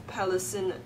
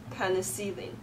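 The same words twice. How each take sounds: The two takes are said the same way.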